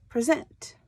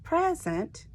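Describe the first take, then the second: First: Pri-ZENT, louder at the end; stress on second syllable. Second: PREZ-ent, high then falling; stress on first syllable. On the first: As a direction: say Present with weight on ZENT. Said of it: "It's a verb". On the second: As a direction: say present with weight on PREZ. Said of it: "is a gift". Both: Shown as a demonstration.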